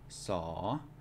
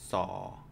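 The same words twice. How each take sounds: First: The syllable has a rising tone. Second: The syllable has a low tone. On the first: "They will always be rising" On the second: "it's going to be low tone"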